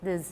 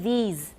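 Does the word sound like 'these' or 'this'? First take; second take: this; these. First: The vowel is short, like in 'this'. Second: The vowel is long, like in 'these'. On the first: The speaker calls it wrong. "this word in Taiwan English often is this or this" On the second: The speaker calls it right. "It should be these"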